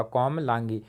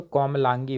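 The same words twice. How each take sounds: First: कोमलांगी repeated softly to settle it; softer confirmation. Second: Said in the usual way. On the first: Shown as a demonstration. Teacher to students, softly confirming the right spelling. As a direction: say कोमलांगी once more, quietly and final. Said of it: "तो कोमलांगी होगा". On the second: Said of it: "कोमलागी कुछ होगा नहीं, तो".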